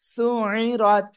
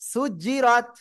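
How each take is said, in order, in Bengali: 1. মাঝের ব্যঞ্জনটি গলা থেকে চেপে উচ্চারণ করা হয়। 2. মাঝের ব্যঞ্জনটি দ্বিত্ব 'জ' ধ্বনি। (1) "আইনটা গলাটা চেপে পড়তে হবে।" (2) "আমি কি ভুল বলছি?"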